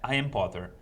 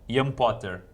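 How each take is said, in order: First: It is said with an English-style pronunciation. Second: It is said with a Brazilian Portuguese pronunciation.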